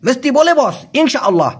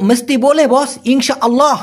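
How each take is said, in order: First: Half-hearted. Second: Confident and spirited. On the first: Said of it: "ঠাটায় বলবে না". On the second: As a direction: say it with real drive and spirit. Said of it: "একদম মনোবল নিয়ে ঠাটায় বলবে না". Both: Shown as a demonstration.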